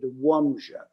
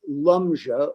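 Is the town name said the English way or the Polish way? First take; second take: Polish; English. First: The name is said with Polish sounds. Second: The name is said with English sounds. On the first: "in Polish they pronounce it Łomża" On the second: "called Lumja"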